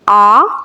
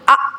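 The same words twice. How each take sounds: First: The vowel is said evenly in a moderate tone. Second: The vowel is pushed out with a jerk. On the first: The speaker calls it right. "दरमियाने लहजे में ही मारूफ अंदाज में पढ़ेंगे" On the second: The speaker calls it wrong. "झटका देना ... ये भी नहीं करना"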